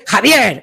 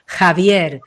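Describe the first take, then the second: First: Angry name. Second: Javier said slowly and proudly; empowered name. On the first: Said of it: "en plan enfadado". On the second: Voice coach showing the empowered way to say Javier, slow. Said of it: "desde el empoderamiento". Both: Shown as a demonstration.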